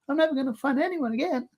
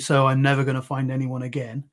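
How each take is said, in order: First: It is said in a squeaky Mickey Mouse voice. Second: It is said in a normal voice.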